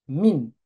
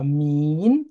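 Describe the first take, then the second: First: "Min" with a brief, unstretched i; short I. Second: "min" with the i stretched long, rising; wrongly prolonged I. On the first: Teacher modelling the right word for students, short vowel. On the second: Teacher warning students of the mistake, overlong vowel. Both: Shown as a demonstration. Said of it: "Attention, pas min".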